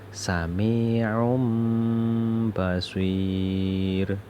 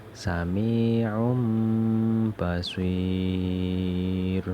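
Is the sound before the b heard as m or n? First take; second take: m; m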